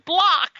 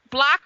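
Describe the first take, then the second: First: The vowel sounds like the one in 'block'. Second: The vowel sounds like the one in 'black'. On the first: "or it could be Block"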